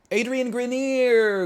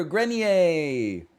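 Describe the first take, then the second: First: "Adrian Grenier" said high and slow, anglicized as GREN-eer; name pronunciation. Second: "Grenier" said the French way, gren-YAY; French pronunciation. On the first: Streamer correcting the name, slow anglicized pronunciation. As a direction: stretch out "Grenier" the English way, rising high. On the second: Streamer correcting the name, French pronunciation. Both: Shown as a demonstration.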